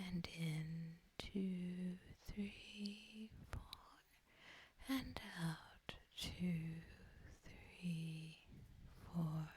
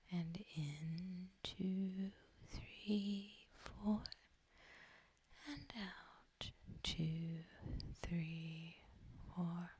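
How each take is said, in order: Both takes have the same delivery.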